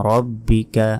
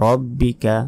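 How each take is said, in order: No difference in how they are said.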